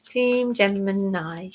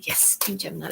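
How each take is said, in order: First: Said in the usual way. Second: Softer aside. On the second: Real, not acted.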